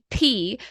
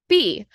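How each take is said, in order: First: A puff of air follows the sound. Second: No puff of air follows the sound. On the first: "you hear the air come out of my mouth, and I'm aspirating that P" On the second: "which is an unaspirated"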